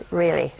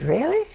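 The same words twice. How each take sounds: First: Low, falling "Really"; falling confirmation. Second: High, rising "Really?"; surprised question. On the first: Counselor confirming to the wife on the phone, matter-of-fact. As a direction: drop "Really" down as a settled answer. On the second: Wife on the phone hearing who is responsible, surprised. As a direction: let "Really" swoop upward in disbelief. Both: Retold or imitated.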